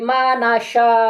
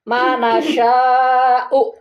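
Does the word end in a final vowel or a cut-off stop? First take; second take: cut-off stop; final vowel. First: The final vowel is dropped and the word stops. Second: The long vowel is held and ends in 'u'. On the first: The reader stops at this word. "kalau di wakaf ini jangan dibaca" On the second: The reading continues without a pause. "Ini lima nih"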